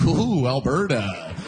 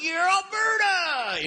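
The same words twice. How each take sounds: First: Slow, lower-pitched wary "Ooh"; mock dismay. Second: High, drawn-out hollered cheer on ALBERTA; mock proud cheer. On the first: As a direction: imitate an outsider uneasy about Alberta. Outsider looking in at Alberta. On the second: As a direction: whoop "Alberta" like a hammed-up local.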